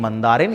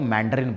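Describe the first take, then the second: First: The word is said with a Hindi pronunciation. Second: The word is said with an English pronunciation. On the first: "ये भाषा बोलती है मंदारिन" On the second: "English में इसको मैंड्रिन बोलते हैं"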